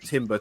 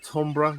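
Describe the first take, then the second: First: It is said like the word timber. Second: It is not said like the word timber. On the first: It is said this way to tease someone. The speaker calls it wrong. "I always call it timber to wind up my mate's wife" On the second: This is the proper pronunciation. The speaker calls it right. "You're supposed to pronounce it"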